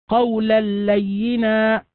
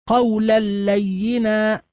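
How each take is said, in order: No difference in how they are said.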